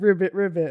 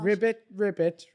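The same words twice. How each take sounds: First: It is said in the speaker's usual accent. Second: It is said in a Welsh accent. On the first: "I won't be able to do this one in a Welsh accent" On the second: "try it again now in Welsh"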